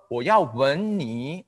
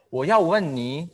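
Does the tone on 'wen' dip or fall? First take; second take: dip; fall. First: The syllable wen has a dipping tone. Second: The syllable wen has a falling tone. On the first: I want to kiss you. "pakai tone tiga, artinya beda" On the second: I want to ask you. "kalau mau nanya itu tone empat"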